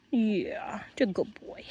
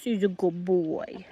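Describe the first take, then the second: First: Whispered soft praise. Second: Said in the usual way. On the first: Real, not acted. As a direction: breathe the praise without voice. Soothing the dog.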